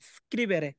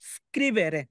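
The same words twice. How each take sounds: No difference in how they are said.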